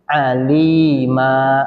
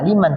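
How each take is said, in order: First: The word ends with a long vowel. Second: The word ends with an n sound. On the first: The speaker calls it right. "tapi alima" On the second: The speaker calls it wrong. "tidak aliman"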